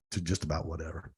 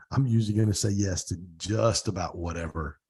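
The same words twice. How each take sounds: First: Trailing echo. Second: Said in the usual way. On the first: Real, not acted. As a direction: echo "to just about whatever" much lower and softer, dying away. Echoes the phrase, fading out.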